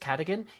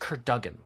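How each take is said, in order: First: The name is said like 'Cadigan'. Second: The name is said like 'Kurdugan'. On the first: The speaker calls it wrong. "I always say it wrong. I say it's Cadigan" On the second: The speaker calls it right. "His name is Kurdugan"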